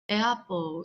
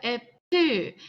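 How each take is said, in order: First: It is said imitating a native English pronunciation. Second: It is said with Korean-style syllables and sounds. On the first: "이렇게 발음하면 원어민처럼 발음할 수 있다" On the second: "우리가 뭐라고 하냐면 애플 이렇게 한단 말이야"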